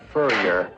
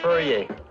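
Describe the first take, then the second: First: The name sounds like the English word furrier. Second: The name is said with a French-sounding ending.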